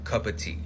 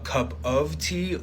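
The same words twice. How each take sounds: First: The word 'of' is reduced to a vowel. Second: The word 'of' is said in full.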